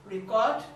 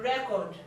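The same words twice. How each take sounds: First: "record" as ri-KORD, second syllable stressed; verb pronunciation. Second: "record" as REK-ord, first syllable stressed; noun pronunciation. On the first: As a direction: say "record" like the verb, pitch rising. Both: Shown as a demonstration. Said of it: "but they have different".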